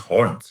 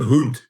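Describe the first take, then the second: First: The vowel sounds like 'o'. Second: The vowel sounds like 'u'. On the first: The speaker calls it right. "it's hond" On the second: The speaker calls it wrong. "It's not hund"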